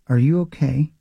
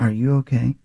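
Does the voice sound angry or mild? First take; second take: mild; angry. First: It is said with little anger or sarcasm. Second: It is said with angry, sarcastic tone. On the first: "I didn't give you enough of anger in that voice" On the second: "Just enough sarcasm, enough anger"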